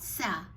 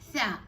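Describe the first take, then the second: First: It begins with a stronger s sound. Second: It begins with a soft th sound. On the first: The speaker calls it wrong. "not sa. Sa is stronger than tha" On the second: The speaker calls it right. "It's tha"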